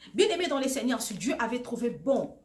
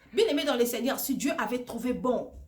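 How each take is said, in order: Both takes have the same delivery.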